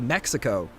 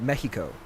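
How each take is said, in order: First: It is said with an English pronunciation. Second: It is said with a Spanish pronunciation. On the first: This is what English speakers call it. "we say Mexico" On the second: This is what the locals call it. "when you're in Mexico, they call it Mexico"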